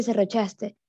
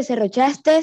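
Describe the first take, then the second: First: Said in the usual way. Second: "serrochaste" with an extra final S; serrochaste with added S. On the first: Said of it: "se dice". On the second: Shown as a demonstration. Student showing the class the error, "serrochaste" with final S added. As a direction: end "serrochaste" on a hiss, as serrochastes. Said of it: "no se dice".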